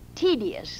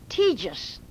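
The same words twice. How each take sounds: First: The word has the standard pronunciation. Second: The word has an old-fashioned pronunciation. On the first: This is the correct modern pronunciation. "Not tedious. ... That's the correct pronunciation" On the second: This is how it was said in the old days. "they call it just as they did in the old days"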